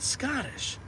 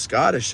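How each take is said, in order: First: Scottish with a high, rolled Scottish lilt; Scottish accent. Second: Said in the usual way. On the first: Shown as a demonstration. Showing chat the actor's Scottish accent. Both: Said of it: "has a pronounced Scottish accent".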